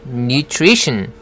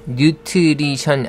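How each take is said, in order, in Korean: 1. 중간 자음 묶음은 'tr'처럼 들립니다. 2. 중간 자음 묶음은 'tl'처럼 들립니다. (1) "tr 발음은 tree라고 해야 되죠" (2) "틀이 아니죠. nutrition 아닙니다"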